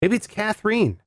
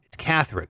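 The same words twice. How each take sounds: First: Catherine as "kath-REEN", pitched high; alternative pronunciation. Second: Catherine as "KATH-rin", falling; usual pronunciation. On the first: Host second-guessing an oddly spelled name, Catherine as "kath-reen", higher. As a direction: say Catherine with a long "ee" in the last syllable. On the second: Host deciding on a listener's name, Catherine as "KATH-rin", falling. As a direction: say Catherine with a short, weak last syllable. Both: Real, not acted. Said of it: "it's spelled all crazy".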